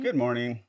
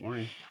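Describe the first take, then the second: First: It is said with more enthusiasm. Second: It is said flatly, without enthusiasm.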